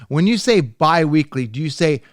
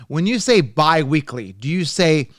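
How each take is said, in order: The two takes are said the same way.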